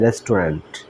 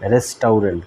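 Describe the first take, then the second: First: It is said with no 'ow' sound in the middle. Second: It is said with an 'ow' sound in the middle. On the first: The speaker calls it right. "কিন্তু এটার উচ্চারণ হবে রেস্টুরেন্ট" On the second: The speaker calls it wrong. "বানানের উচ্চারণ অনুসারে করলে হয় রেস্টাউরেন্ট"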